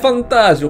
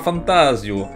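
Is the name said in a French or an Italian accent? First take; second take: Italian; French. First: It is said in a put-on Italian accent. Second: It is said in a plain French accent.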